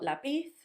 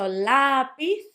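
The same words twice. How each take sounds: First: The stress is on the last syllable. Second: The stress is on the first syllable. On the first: The speaker calls it wrong. "and not lápiz" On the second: The speaker calls it right. "So lápiz"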